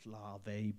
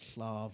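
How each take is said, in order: First: The double L is pronounced the non-Welsh way. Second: The double L is pronounced the Welsh way. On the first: "I know it's Slave" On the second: "it's got two L's and I'm Welsh, so it's pronounced like that"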